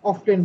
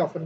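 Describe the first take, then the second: First: অফটেন with a clear t sound; British pronunciation. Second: অফেন said with the t dropped; silent t. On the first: Teacher shows the student the British অফটেন, t sounded. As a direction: say অফটেন with the t pronounced, British style. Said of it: "British ফরম্যাটে কি বলছে". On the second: Teacher shows the student অফেন with a silent t. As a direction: say অফেন, no t at all. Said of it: "কেউ অফেন বলছে". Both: Shown as a demonstration.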